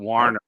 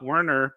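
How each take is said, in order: First: The name begins with a 'war' sound. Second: The name begins with a 'wer' sound. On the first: The speaker calls it right. "but Warner" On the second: The speaker calls it wrong. "Not Werner"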